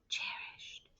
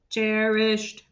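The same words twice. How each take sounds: First: It is said in a soft whisper. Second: It is said in a flat, mechanical robot voice. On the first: "whisper voice" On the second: "robot voice"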